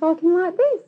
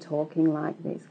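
First: It is said faster and at a higher pitch. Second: It is said at a medium pitch and pace.

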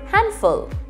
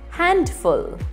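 First: The D sound is silent. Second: The D sound is pronounced. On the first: The speaker calls it right. "Pronounce it as handful" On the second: The speaker calls it wrong. "It is not read as handful"

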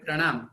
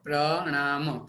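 First: The word is said smoothly in one piece. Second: The word is split into separate parts. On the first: "આપણે પ્રણામ એમ શબ્દ ભેગો બોલીશું" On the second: "અત્યારે તો હું એટલે માટે છૂટો પાડું છું, તમને સમજાય"

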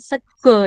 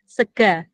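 First: The word ends with an o vowel. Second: The word ends with an a vowel. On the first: This is the form from another dialect area. The speaker calls it wrong. "dialek saya salah ya, bukan sego ya" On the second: This is the local West Java form. The speaker calls it right. "sega. Bahasa Jawa Barat ya"

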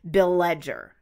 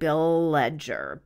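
First: The L sound between the names is short. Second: The L sound between the names is drawn out.

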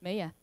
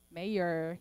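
First: It is said without a final r sound. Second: It is said with a final r sound.

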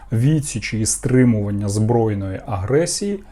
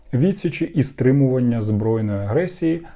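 The two takes are said the same way.

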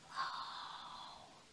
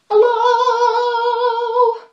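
First: It is said very quietly. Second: It is said very loudly.

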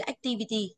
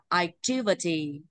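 First: All syllables get equal, flat stress. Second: The second syllable carries the stress. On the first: The speaker calls it wrong. "bằng nhau đâu nhá ... học thế chết đúng không ạ?" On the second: The speaker calls it right. "nên phải đọc là activity đúng không ạ?"

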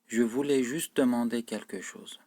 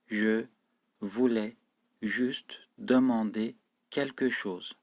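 First: The sentence is spoken at a fast, normal pace. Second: The sentence is spoken at a slow pace. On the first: "Önce hızlı okuyorum, yani normal seviyede okuyorum" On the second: "Sonra da yavaş okuyorum cümleyi"

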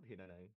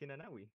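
First: The name ends in 'nai' without a w sound. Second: The name ends in 'nawi' with a w sound. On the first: The speaker calls it wrong. "It's not Hinanai" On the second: The speaker calls it right. "It's Hinanawi"

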